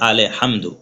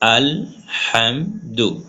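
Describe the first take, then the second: First: An extra vowel is added after al. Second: Al ends closed; syllables come out separately. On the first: The speaker calls it wrong. "তাহলে হয়ে যাবে আলে হামদু" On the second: The speaker calls it right. "প্রথমে আপনি এইভাবে ভেঙে ভেঙে পড়বেন"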